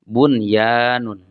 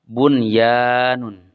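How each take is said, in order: Both takes have the same delivery.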